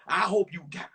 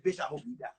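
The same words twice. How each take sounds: First: "I hope you die" spaced out, firmly voiced; measured, pointed delivery of "I hope you die"; deliberate repeat. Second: Low, soft, offhand curse; quiet retold curse; muttered curse. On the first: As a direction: land each word of "I hope you die". Same curse repeated more deliberately. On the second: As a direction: say it under your breath, low. Same curse said twice, first low.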